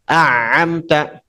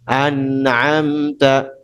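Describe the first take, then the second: First: The n merges into the following sound. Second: The n has only a slight nasal hum. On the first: The speaker calls it wrong. "idgham dileburkan huruf setelahnya" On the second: The speaker calls it right. "Ini praktik benar tadi ya"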